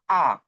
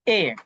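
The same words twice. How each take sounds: First: The letter is named the Russian way. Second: The letter is named the English way. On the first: "but it pronunciate in Russian" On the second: "when we will pronunciation pronunciation in English"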